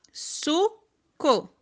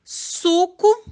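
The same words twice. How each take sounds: First: Suco split as "su... co", full final o; softer su – co with a clear pause; syllable by syllable. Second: Said in the usual way. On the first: Shown as a demonstration. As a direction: say "suco" in two separate beats. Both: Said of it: "vamos lá".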